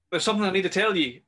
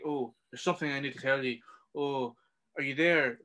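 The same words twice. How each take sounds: First: Higher and louder, dragging the line out; urgent, raised voice over the walkie; retold shout. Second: Lightly mocking, dragging imitation; mocking the dawdler. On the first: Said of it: "is shouting". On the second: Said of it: "Instead of being like".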